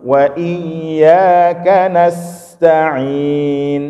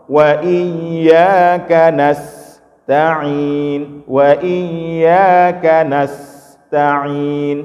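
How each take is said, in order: First: Slow chant with "nasta'in" joined, no break after s; slow sung "nasta'in" with the sin linked; connected reading. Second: Slow chant with "nasta'in" cut apart between s and ta; slow sung "nas" then "ta'in" with a clear break; broken reading. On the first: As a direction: keep the s flowing straight into ta. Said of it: "kita bacanya sambung". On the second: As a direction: stop the voice after the s, then restart on ta. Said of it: "Tapi kalau kita potong". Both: Shown as a demonstration.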